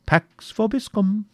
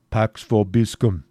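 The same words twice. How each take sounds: First: High, slow sing-song Latin blessing; jester's parting Latin. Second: A slow Latin blessing from a stranger in disguise; disguised friar's blessing. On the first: Wamba teasing his uncle with the Latin blessing, high and drawn out. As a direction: tease it out like a mocking fool. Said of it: "and remember". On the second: Cedric in disguise blessing a woman, slow and solemn. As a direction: say it slowly, playing the priest. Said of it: "said the pseudo-friar". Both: Acted.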